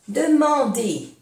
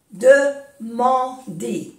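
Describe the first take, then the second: First: Said in the usual way. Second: "Demander" in three slow, separate syllables. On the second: Shown as a demonstration. Teacher repeating for learners, "Demander" slowly syllable by syllable. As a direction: pause between the syllables of "Demander".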